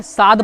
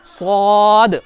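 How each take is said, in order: First: साद said thin and flat; the wrong thin साद; wrong thin saad. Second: स्वाद with rounded lips, thick voice; heavy rounded saad. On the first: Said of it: "ये गलत है". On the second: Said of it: "आवाज़ थोड़ी मोटी करेंगे". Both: Shown as a demonstration.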